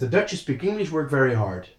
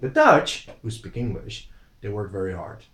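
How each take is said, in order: First: It is said as one phrase without pause. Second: There is a short pause after English.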